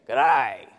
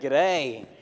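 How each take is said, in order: First: It is said in a broad, growly pirate-like drawl. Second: It is said as a plain, ordinary greeting.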